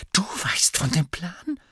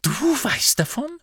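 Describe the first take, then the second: First: High, incredulous question; indignant disbelief. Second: Very high, outraged question; outraged disbelief. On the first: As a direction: query it sharply, taken aback. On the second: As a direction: pitch shoots up in indignant shock. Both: A narrator's reading. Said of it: "einer empörten Miene".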